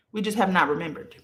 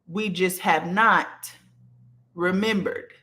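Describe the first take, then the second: First: Fast, tossed-off restatement of "We just have not remembered"; quick repeat. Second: Slowly, pausing before "remembered", leaning on "not"; "We just have not" drawn out, a beat, then "remembered"; slow stressed delivery. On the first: To her live viewers, a quick repeat. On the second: To her live viewers, stressing the lesson slowly. Teaching viewers, repeats the line. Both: Shown as a demonstration.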